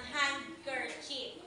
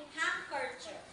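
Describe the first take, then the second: First: "handkerchief" with the d sounded, "hand-ker-chip"; wrong reading. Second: "handkerchief" with silent d, "hang-ker-chif"; correct reading. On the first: Teacher showing the misreading, "handkerchief" said "hand-ker-chip". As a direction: read "handkerchief" as spelt, d and all. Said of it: "hindi binabasa ng". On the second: Teacher modeling the pronunciation, "handkerchief" without its d. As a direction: drop the d in "handkerchief". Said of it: "ang pronunciation o bigkas nito". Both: Shown as a demonstration.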